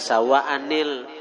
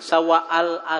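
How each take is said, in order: First: The words are joined by a linking 'ni' sound. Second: The words are joined without any linking 'ni' sound. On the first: The speaker calls it right. "dibaca sawa'anil" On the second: The speaker calls it wrong. "jangan sawa al"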